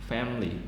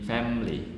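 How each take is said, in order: First: The word is said with two syllables. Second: The same.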